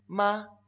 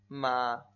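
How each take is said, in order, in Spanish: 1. La sílaba se dice en el primer tono. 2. La sílaba se dice en el tercer tono.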